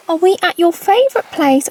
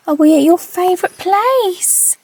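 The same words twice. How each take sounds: First: Pet voice. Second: High, slow sing-song dog talk; pet voice. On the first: Owner repeating the question to her dog. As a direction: ask him again, cooing. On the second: Owner asking her dog in slow pet voice. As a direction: coo the question to him. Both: Real, not acted.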